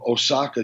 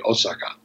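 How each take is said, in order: First: One syllable carries stronger stress than the others. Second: All syllables are given equal weight. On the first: "in English, people say" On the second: "in Japanese, it would be Osaka. So there's no emphasis on syllables"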